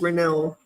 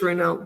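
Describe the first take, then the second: First: The name is said with a French pronunciation. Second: The name is said with an English pronunciation. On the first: "but I believe it's" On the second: "We pronounce it in English"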